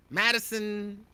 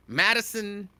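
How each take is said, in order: Both takes have the same delivery.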